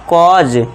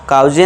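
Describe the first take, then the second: First: The vowel is an open aw sound. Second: The vowel is an ow diphthong. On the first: The speaker calls it right. "तो इसे क्या पढ़ेंगे, कॉज" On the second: The speaker calls it wrong. "काउजे नहीं पढ़ना है"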